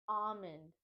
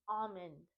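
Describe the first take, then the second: The two takes are said the same way.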